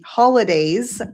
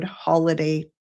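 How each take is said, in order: First: Holidays with a louder, stressed final s. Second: Said in the usual way. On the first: Shown as a demonstration. Correcting a promo code for viewers, holidays with its plural s stressed. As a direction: lean on the s of holidays to mark it plural.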